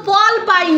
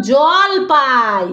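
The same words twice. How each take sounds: First: Put-on "পল পাই" with a p sound at the start, as the child said it; the child's "পল পাই", first sound p; wrong word. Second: "জল পাই" slowly, clear j at the start; correct word. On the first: Mother echoing the child's mistaken "পল পাই" before correcting. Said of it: "এগুলো তো জল পাই". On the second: Mother teaching the child to say "জল পাই" slowly. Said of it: "বলো, জল পাই". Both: Shown as a demonstration.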